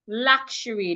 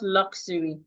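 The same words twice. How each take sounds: First: The middle of the word has an SH sound. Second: The middle of the word has no SH sound. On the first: The speaker calls it right. "S H sound there" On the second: The speaker calls it wrong.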